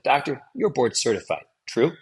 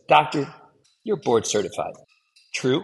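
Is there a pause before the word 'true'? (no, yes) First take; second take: no; yes. First: The final word follows with no pause. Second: A clear pause comes before the final word. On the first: The listeners get no time to process the fact. The speaker calls it wrong. "if you don't allow that space" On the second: The listeners get time to process the fact. The speaker calls it right. "allow a pause after the statement, between the statement and the tagline"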